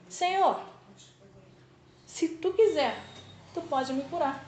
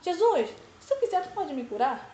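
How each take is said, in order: First: It ends with a falling, statement tune. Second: It ends with a rising, question tune.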